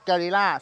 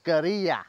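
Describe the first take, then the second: First: It is pronounced the Thai way. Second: It is pronounced the Spanish way. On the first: "บัตแต่อินไทยครับ" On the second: "ในภาษาสเปนิชเขาออกเสียงว่า"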